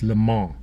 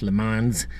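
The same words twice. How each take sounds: First: The name is said with a French pronunciation. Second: The name is said with an American pronunciation. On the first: The speaker calls it right. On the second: The speaker calls it wrong.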